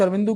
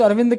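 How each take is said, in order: First: अरविंदु with an added short u at the end; teacher gives the other variant, अरविंदु ending on a soft u; said as Arvindu. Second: अरविंद said with no final vowel, ending on the d; teacher gives one variant, अरविंद clipped at the final d; said as Arvind. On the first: शिक्षक दूसरा उच्चारण बताता है, अरविंदु अंत में उ के साथ. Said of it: "कुछ अरविंदु कहते हैं". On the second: शिक्षक नाम बताता है, अरविंद अंत में बिना उ के. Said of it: "कुछ अरविंद कहते हैं". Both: Shown as a demonstration.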